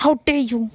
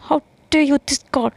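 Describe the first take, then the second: First: A short, indignant how dare you; angry. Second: Slow, higher, louder, stretched-out how dare you; dramatic outrage. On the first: Yash, angry at Anu, snaps it quickly. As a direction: throw out the line in quick offence. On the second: Yash repeats it, slow and hammed-up in fury. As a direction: drag every word out in theatrical fury. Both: Acted. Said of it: "बस गुस्से में ही".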